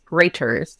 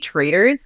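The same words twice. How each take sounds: First: The middle consonant is a clear T. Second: The middle consonant sounds like a soft D. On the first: "traitors with a T and not a D" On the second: "I say traitors because that's my Canadian accent"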